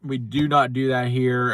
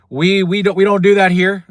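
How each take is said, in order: First: "not" split off and leaned on, "We do not do that here"; firm final word, "not" stressed. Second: We don't do that here, shouted high and loud; loud, indignant dismissal; loud catchphrase. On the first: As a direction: land hard on "not" in "We do not do that here". Repeating catchphrase, spelling it out. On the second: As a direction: bark the catchphrase down the mic. Rejecting the rival, catchphrase. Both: Real, not acted.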